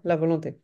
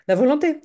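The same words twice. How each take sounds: First: Said in the usual way. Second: "La volonté" said higher and louder, with the weight on "volonté"; emphatic motto. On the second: Real, not acted. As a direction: lift "La volonté" up and press on "volonté" like a motto. Repeats her motto about willpower.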